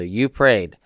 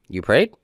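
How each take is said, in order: First: The voice falls at the end. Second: The voice rises at the end.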